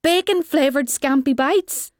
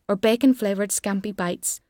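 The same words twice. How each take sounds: First: Higher, rising disbelieving question; mock incredulity. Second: Said in the usual way. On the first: A narrator's reading. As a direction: exclaim it back as if astonished. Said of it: "will shout in mock incredulity". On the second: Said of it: "finishes off with a litany of".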